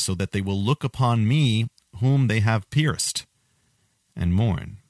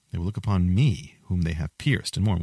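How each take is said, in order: First: Slow, weighty scripture reading, every word laid down; solemn slow reading. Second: Said in the usual way. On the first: Shown as a demonstration. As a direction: read it slowly and gravely, higher and louder. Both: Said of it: "Then it says".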